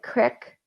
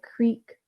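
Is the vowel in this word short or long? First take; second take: short; long. First: It is said with a short vowel, like crick. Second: It is said with a long vowel, like creek. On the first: "In some places in America, they will say uh, like crick" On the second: "instead of creek"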